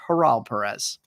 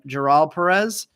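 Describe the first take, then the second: First: The first name begins with an H sound. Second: The first name begins with a J sound. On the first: The speaker calls it right. "Apparently it's Haral Perez" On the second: The speaker calls it wrong. "Also been saying his name wrong"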